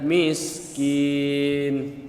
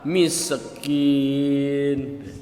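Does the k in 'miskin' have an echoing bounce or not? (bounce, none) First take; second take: none; bounce. First: The k has no echoing bounce. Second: The k has an echoing bounce. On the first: The speaker calls it right. "yang benar adalah miskin, ya. Jangan diqalqalahin" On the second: The speaker calls it wrong. "ada orang yang baca qalqalah"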